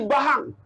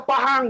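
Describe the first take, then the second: First: "Bahang" with B for the P of Pahang; P turned to B. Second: Said in the usual way. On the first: Shown as a demonstration. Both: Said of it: "Jadi kalau fa jadi ba".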